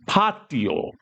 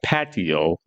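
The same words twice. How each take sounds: First: It is said with a Spanish pronunciation. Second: It is said with an English pronunciation. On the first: "put that Spanish twang on it" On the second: "our English word patio"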